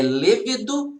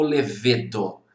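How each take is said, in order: First: "levedo" stressed on first syllable, LE-ve-do; tônica na primeira sílaba. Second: "levedo" stressed on middle syllable, le-VE-do; tônica na penúltima. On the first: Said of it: "é levedo ou levedo? ... como que é o correto?". ("levedo" com acento tônico no LE inicial) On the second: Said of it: "É o levedo". ("levedo" com a tônica no VE) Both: Shown as a demonstration.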